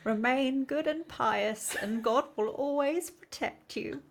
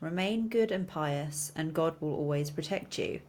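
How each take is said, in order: First: It is read in a put-on elderly voice. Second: It is read in a natural, everyday voice.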